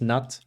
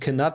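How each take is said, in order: First: The word starts with an n sound, no k. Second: The word starts with a k sound before n. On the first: This is probably the correct pronunciation. "I'm pretty sure it is just Nut" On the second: This is the funnier pronunciation. "But Knut is way funnier"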